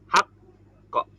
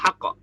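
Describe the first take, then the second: First: The final bounce comes after a one-beat hold. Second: The final bounce comes immediately, with no hold. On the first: The speaker calls it right. "tapi hak kok" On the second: The speaker calls it wrong. "nggak langsung hak kok gitu ya"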